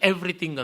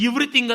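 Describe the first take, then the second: First: The first vowel is a short 'e' sound. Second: The first vowel is a long 'ee' sound. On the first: The speaker calls it right. "ಅಲ್ಲಿ ಎ ಆಗಿದೆ" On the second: The speaker calls it wrong. "ಅದು ಎವ್ರಿಥಿಂಗ್ ಅಂತ ನಾವು ಓದಲ್ಲ"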